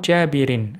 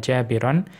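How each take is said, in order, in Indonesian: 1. Kata ini berakhir dengan bunyi 'in'. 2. Kata ini berakhir dengan bunyi 'an'. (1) "jabirin dengan memajrurkannya" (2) "dengan menasobkan jabiron"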